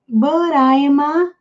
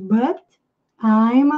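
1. As palavras são ditas juntas, com um som de R de ligação. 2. As palavras são ditas separadas, com pequenas pausas. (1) "Esse T emenda aqui com I" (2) "Às vezes eles falam mais pausado, querendo dar ênfase"

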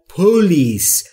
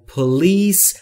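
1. تکیه روی هجای اول است. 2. تکیه روی هجای دوم است. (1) "اکثر زبان آموزا ... میگن پلیس" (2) "استرس روی بخش دومه، یعنی روی لیس در پلیس"

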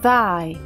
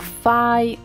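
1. Começa com th, com a língua entre os dentes. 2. Começa com o som de f. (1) "a ponta da língua deve estar entre os dentes" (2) "ou fai"

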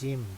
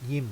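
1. คำนี้ขึ้นต้นด้วยเสียง J 2. คำนี้ขึ้นต้นด้วยเสียง Y (1) "ฝรั่งอ่าน gym เป็นตัวจอจาน" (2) "แต่คนไทยเรียกยิม"

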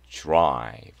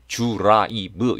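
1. 가볍게 발음합니다, 한 번에 빠르게 미끄러지듯이. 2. 세게 발음합니다, 음절마다 하나씩. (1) "지나가듯이" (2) "너무 드라이브 이렇게 하지 마시고요"

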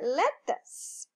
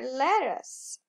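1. É pronunciada com sotaque britânico. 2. É pronunciada com sotaque americano. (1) "E o inglês britânico vai falar" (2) "O inglês americano vai pronunciar"

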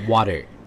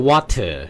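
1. 中间的 t 是轻柔的浊闪音。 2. 中间的 t 是清脆的清塞音。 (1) "是water" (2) "也不是water"

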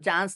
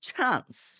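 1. ch ধ্বনিতে বাতাসের কোনো ঝাপটা নেই। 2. ch ধ্বনিতে বাতাসের একটি জোরালো ঝাপটা আছে। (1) "চান্স না বলে" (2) "কি চান্স"

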